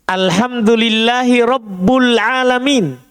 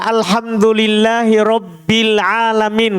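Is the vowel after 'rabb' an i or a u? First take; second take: u; i. First: The word rabb ends with a u vowel. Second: The word rabb ends with an i vowel. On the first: The speaker calls it wrong. "Dia baca dengan dhammah" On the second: The speaker calls it right. "Kan begitu bacaannya"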